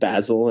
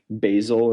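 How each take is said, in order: First: It is said with a British pronunciation. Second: It is said with an American pronunciation. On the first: "instead of basil" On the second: "use American pronunciation of words like basil"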